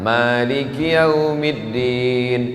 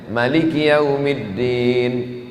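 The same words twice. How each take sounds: First: The first vowel of Maliki is long. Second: The first vowel of Maliki is short. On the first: This follows the Hafs reading tradition. "ma-nya panjang" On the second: This follows the Warsh reading tradition. "Qiraat Warsh pendek"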